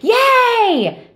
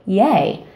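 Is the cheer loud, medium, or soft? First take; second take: loud; medium. First: The cheer is loud. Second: The cheer is at medium volume.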